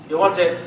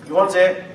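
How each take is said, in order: Both takes have the same delivery.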